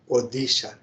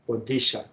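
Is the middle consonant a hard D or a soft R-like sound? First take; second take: hard D; hard D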